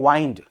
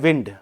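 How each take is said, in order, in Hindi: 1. स्वर 'eye' जैसा सुनाई देता है। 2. स्वर छोटा 'i' है। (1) "उसको प्रोनाउंस करते हैं वाइंड" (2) "उसको बोलते हैं विंड"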